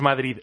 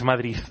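First: The word ends with a d sound. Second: The word ends with a th sound. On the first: "allí no es Madrid" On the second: "Con Z"

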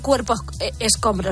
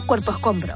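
First: The s sound is fully pronounced. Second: The s sound is aspirated or dropped. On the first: The speaker calls it wrong. "no se dice cuerpo escombro" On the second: The speaker calls it right. "se dice cuerpo escombro"

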